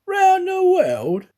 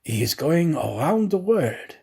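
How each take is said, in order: First: High, slow, loud astonished cry. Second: Said in the usual way. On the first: Acted. Detective cries out in disbelief at the valet's news. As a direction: stretch it out in disbelief. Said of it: "cried Fix".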